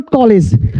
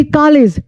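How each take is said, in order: First: "कॉलेज" said as "kolej", round o; wrong O pronunciation. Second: "कॉलेज" said as "kaalej", long aa; open AA pronunciation. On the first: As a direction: round the first vowel of "कॉलेज". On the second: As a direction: open the first vowel of "कॉलेज" wide. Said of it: "आ होती है". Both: Shown as a demonstration.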